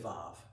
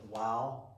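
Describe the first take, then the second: First: It begins with a V sound. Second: It begins with a W sound. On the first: This is the later pronunciation. "calling it Vav and using a V sound" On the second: This is the ancient pronunciation. "in ancient times, was pronounced um, wow, like a W"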